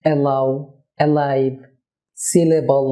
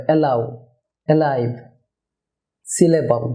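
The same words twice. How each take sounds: First: "অ্যালাউ, অ্যালাইভ, সিলেবল" with a thick middle L; thick, un-light mid-word L; wrong heavy L. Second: "অ্যালাউ, অ্যালাইভ, সিলেবল" with a light middle L; clear, light mid-word L; thin L. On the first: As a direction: show a heavy L inside each word. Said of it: "না, এভাবে হবে না". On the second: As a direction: say the middle L from the tongue tip. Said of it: "পাতলা এল হবে". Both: Shown as a demonstration.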